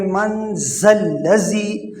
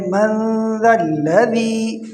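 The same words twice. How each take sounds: First: ذا الذی with buzzing z sounds; wrongly hard dhal. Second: ذا الذی with soft th-as-in-this; soft dhal. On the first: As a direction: say zallazi for ذا الذی as a mistake. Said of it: "سختی کے ساتھ نہیں پڑھنا". (ذال کو سخت زے بنا کر) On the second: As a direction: recite من ذا الذی slowly, tongue-soft ذ. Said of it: "اس کو نرم پڑھنا ہے". (ذال نرم، کھینچ کر) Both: Shown as a demonstration.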